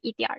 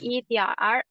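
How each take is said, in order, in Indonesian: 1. 儿 menyatu dengan lancar ke suku kata sebelumnya. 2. Ada jeda yang memisahkan 儿 dari suku kata sebelumnya. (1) "langsung gabung" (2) "jangan dikasih"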